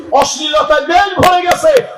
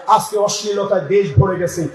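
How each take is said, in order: First: অশ্লীলতায় দেশ ভরে গেছে shouted high, দেশ hit hardest; shouted repeat. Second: Said in the usual way. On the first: Shown as a demonstration. Preacher repeating it to the crowd as a shout. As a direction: hurl দেশ at the crowd, much higher and louder. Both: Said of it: "repeated louder".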